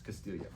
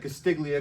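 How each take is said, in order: First: The G sound is slid past and silent. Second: The G sound is clearly pronounced. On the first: The speaker calls it right. "in Italian, you slide past a lot of that shit, and it's Castiglia" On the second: The speaker calls it wrong. "that's literally what it looks like, Castiglia, because there's a G"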